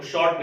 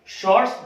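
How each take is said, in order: First: शॉर्ट stopping on t; mistaken singular. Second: शॉर्ट्स ending in ts; correct plural form. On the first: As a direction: leave the s off शॉर्ट. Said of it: "वो शॉर्ट नहीं बोलते हैं". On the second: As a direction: finish शॉर्ट्स on a clear s. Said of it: "शॉर्ट्स बोलते हैं". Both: Shown as a demonstration.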